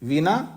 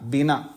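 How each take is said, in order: First: The word begins with a v sound. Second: The word begins with a b sound. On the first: This is the Sanskrit form. "Sanskrit में वीणा बोलते हैं" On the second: This is the Hindi form. "Hindi में बीना बोलते हैं"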